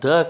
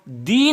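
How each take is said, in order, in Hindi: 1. स्वर एक छोटी 'uh' ध्वनि है। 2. स्वर एक लंबी 'ee' ध्वनि है। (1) "यहाँ पर द कहेंगे" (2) "दी न कह के"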